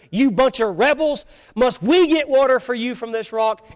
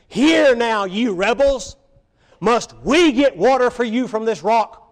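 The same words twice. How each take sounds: First: Higher and louder, furious outcry; cried out in anger. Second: Louder, higher, scolding the rebels; angry rebuke. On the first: Moses crying out at the people, angry and loud. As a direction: bark it at the crowd in anger. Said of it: "he just cried out in anger". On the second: Moses scolding the thirsty rebels, angry and loud. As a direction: Moses thundering at the grumbling crowd. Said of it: "He was so frustrated with them". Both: Retold or imitated.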